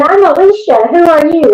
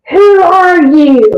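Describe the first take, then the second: First: Higher-pitched quick comeback; retold firm retort. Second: High, slow, raised demand; possessed man's challenge. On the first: Investigator answering the spirit's challenge, retorting. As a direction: throw the question straight back. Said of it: "And I said". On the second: Retold or imitated. Possessed man confronting the approaching investigator, demanding. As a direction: challenge an intruder, stretching each word. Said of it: "He goes".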